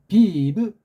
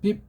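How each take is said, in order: First: It is two syllables with an added vowel. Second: It is one syllable ending in a closed consonant. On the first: "비브라고 하는 건" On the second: "빕을 못하고"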